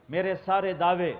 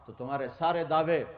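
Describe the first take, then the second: First: سارے hit louder and higher, falling after; stress on سارے. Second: Said in the usual way. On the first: Shown as a demonstration. Preacher turning the claim on himself, سارے stressed. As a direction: lean hard into سارے.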